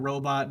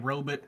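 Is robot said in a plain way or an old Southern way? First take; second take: plain; old Southern. First: It is pronounced in the usual plain way. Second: It is pronounced like an old Southern man. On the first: "instead of robot" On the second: "some like old Southern man might say robot"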